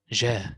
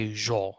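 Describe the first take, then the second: First: The consonant is light, with a thin vowel. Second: The consonant is heavy, with a thick vowel. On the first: The speaker calls it right. "So here we say ja" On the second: The speaker calls it wrong. "Don't say ja. If you say ja, ... it is mufakhama"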